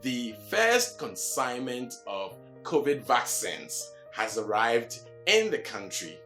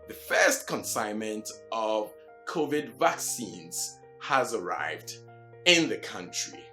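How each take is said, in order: First: The last syllable of vaccines sounds like 'sins'. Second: The last syllable of vaccines sounds like 'seens'. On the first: The speaker calls it wrong. "you don't say" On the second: The speaker calls it right. "but what?"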